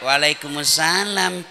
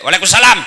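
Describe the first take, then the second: First: It is said in a languid, drawn-out way. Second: It is said in a short, firm way.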